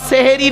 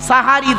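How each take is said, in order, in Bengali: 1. প্রথম সিলেবলে 'e' স্বরধ্বনি আছে। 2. প্রথম সিলেবলে 'a' স্বরধ্বনি আছে। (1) "শব্দটা সেহেরি নয়" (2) "দন্তেশয় একার নয়, দন্তেশয় আকার"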